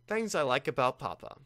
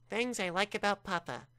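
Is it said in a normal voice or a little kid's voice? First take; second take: normal voice; kid's voice. First: It is said in his normal voice. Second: It is said in a little kid's voice.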